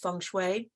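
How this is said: It is said with the Mandarin pronunciation.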